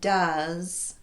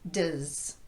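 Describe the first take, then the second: First: The word has its full vowel. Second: The word has only a tiny schwa. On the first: "Rather than does" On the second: "it sounds like does"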